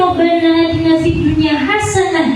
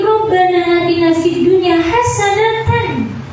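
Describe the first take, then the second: First: The last word ends without the tanwin, as hasanah. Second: The last word ends with the tanwin, as hasanatan. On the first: "biasanya Rabbana atina fid dunya hasanah" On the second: "fathataini itu dibaca"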